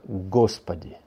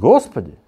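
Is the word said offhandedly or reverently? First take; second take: reverent; offhand. First: It is said with heartfelt, reverent feeling. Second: It is said casually, like a routine phrase. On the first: It is a sincere appeal to God. The speaker calls it right. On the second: It is only a habitual phrase. The speaker calls it wrong.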